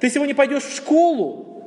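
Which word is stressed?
школу. The stress falls on the word школу. The question is about the destination. "То есть у тебя есть выбор. В школу, на работу"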